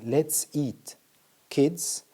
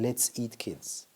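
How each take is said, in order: First: There is a pause between eat and kids. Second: There is no pause between eat and kids. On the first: The speaker calls it right. "Instead of saying" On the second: The speaker calls it wrong. "You simply forgot the comma"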